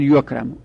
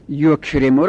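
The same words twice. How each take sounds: First: یکرمو said as "yukramu"; passive vowelling. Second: Said in the usual way. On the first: Shown as a demonstration. Teacher making yukrimu passive, penultimate vowel a. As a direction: say یکرمو with a before the last sound. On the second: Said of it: "بخوایم مجهول کنیم".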